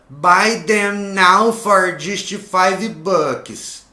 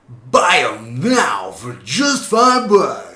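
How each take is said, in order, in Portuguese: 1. É dita com uma entonação simples e plana. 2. É dita com uma entonação exagerada e caricata. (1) "Aí ele não falava" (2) "Com essa entonação, uma coisa caricata, uma coisa exagerada"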